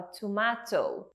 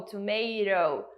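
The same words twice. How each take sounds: First: Tomato with a crisp clear T and open a, tomahto; tomato in British English, T fully sounded. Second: Tomato in American English, T tapped to an R sound. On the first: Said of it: "o T é sempre T". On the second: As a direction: say tomato the American way, T as a quick tap. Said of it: "ele vai falar um row". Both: Shown as a demonstration.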